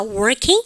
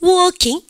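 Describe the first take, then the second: First: "working" with a clear American R. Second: "working" as /wokiŋ/, R dropped; British "working" with no R. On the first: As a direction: sound the R in "working". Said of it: "미국 애들은 알 발음 합니다". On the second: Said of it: "영국 애들은요, 알 발음 중간에 하지 않으니까". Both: Shown as a demonstration.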